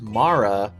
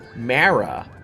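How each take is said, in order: First: The name does not sound like 'marathon'. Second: The name sounds like the start of 'marathon'. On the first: "what does Mara rhyme with?" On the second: "come at it from a different angle and pronounce it as Mara"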